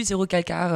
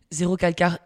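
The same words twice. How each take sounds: First: Said in the usual way. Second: Name said the Italian way, Italian accent. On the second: Shown as a demonstration. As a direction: pronounce Zéro Calcar with a light Italian accent. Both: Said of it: "notez mon accent".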